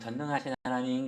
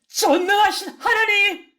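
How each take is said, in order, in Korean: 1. 그냥 무심하게 하는 말투예요. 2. 간절하게 애원하는 말투예요. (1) "그냥" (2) "정말 간절하게"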